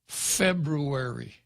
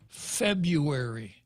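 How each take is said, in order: First: Both R sounds are clearly pronounced. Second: The first R sound is left out. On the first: The speaker calls it right. "there are two R's in February? ... It's February" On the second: The speaker calls it wrong. "It ain't February"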